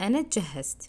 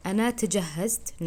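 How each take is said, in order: First: أنا جهزت with the t swallowed into the j, said all at once; right, t run in. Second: أنا تجهزت with a clear separate t before the j; wrong, separate t. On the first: Teacher showing students the right way with the t run in. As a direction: run جهزت together with barely any t. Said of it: "একদম সাথে সাথে বলবেন". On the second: Teacher showing students the wrong way with a separate t. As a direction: sound out the t in تجهزت as its own syllable. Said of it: "তটা এভাবে বলবেন না". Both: Shown as a demonstration.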